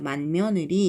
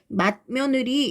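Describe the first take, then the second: First: The first syllable ends in an n sound. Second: The first syllable ends in a t sound. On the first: The speaker calls it right. "비슷한 비음으로" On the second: The speaker calls it wrong. "맛 한번 끊어야 되니까 조금 번거로워"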